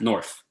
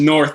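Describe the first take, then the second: First: The word ends with an F sound. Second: The word ends with a TH sound. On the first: This is how locals in the city say it. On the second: This is the standard form of the word.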